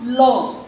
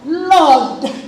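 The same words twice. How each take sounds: First: The final consonant is left off. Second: The final consonant is clearly pronounced. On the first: The speaker calls it wrong. "it's not Lord" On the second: The speaker calls it right. "pronounce the consonant"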